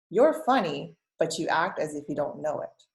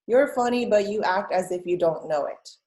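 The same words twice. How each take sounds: First: "You're funny," lifted, clear pause before "but you act"; pause after funny. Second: "You're funny" lifted high and loud, then a pause before "but"; teacher reads it out, marking the pause after "funny". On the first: Teacher rereads so students hear the pause after "funny". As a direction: read it again, hold a beat after "funny". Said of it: "if we read it again". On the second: Teacher models the comma pause for students, "funny" up high. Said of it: "Where do you hear a pause". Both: Shown as a demonstration.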